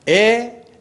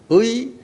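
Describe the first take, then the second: First: The vowel is a plain e sound. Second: The vowel is a gliding ui sound. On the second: "의의 발음은 의"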